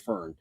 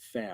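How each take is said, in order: First: The word is said with an English-style pronunciation. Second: The word is said with a German pronunciation. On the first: This is the common way others say it. The speaker calls it wrong. "which I know everyone says Fern" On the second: This is how it is said in German. The speaker calls it right. "in German you would say Fan"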